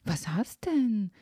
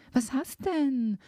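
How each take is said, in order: First: Said in the usual way. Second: Das zweite „Was hast denn?“ höher und langsam nachgehakt; drängender nachgefragt. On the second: A narrator's reading. (drängend und höher wiederholte Frage) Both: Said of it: "fragte ich".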